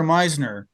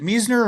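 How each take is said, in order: First: Meisner said as MIZE-ner; Meisner, first syllable rhyming with "size". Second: Meisner said as MEEZ-ner; Meisner, first syllable rhyming with "sees". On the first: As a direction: say Meisner with a long i, as in "eye". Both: Shown as a demonstration. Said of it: "is it Meisner or Meisner?".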